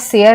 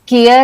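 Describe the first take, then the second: First: The word begins with an s sound. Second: The word begins with a k sound. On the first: "नहीं बोलते" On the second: "इसको हम केयर या सेयर नहीं बोलते"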